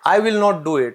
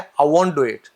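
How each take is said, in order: First: 'Will not' is said as two full words. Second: 'Will not' is contracted to 'won't'.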